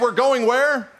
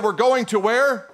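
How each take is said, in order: First: "going" stressed hard, "where" sharp; emphatic question. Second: Slow "We're going to where?" stressing going; questioning stress on going. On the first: Preacher re-reading to the congregation, punching going. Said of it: "Okay, now". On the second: A preacher coaching the congregation to question, slow. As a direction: lean on "going", ask "where" slowly. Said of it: "Let me try it again". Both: Shown as a demonstration.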